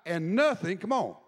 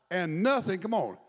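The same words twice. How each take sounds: The two takes are said the same way.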